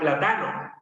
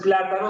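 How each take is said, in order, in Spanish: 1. El acento está en la segunda sílaba. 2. El acento está en la primera sílaba. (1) "muchas palabras esdrújulas las va a pronunciar como grave" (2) "En vez de decir entonces plátano"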